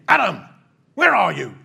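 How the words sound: It is said in a stern, harsh tone.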